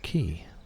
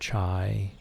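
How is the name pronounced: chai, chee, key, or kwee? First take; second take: key; chai. First: The name sounds like 'key'. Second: The name sounds like 'chai'. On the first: This is what the speaker always called him. "I had always called him Mister Key" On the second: This is what other people called him. "or Mister Chai"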